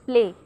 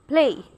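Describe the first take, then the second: First: The p is released without a puff of air. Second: The p is released with a strong puff of air. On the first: "they do not say play" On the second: "they say play. So they put more stress on P"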